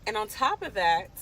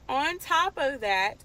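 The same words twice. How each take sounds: First: Said in the usual way. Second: On top of that, drawn out slow and a little higher; slow, weighty repeat of on top of that; dragged-out emphasis. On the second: Real, not acted. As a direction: stretch each word of on top of that to build suspense.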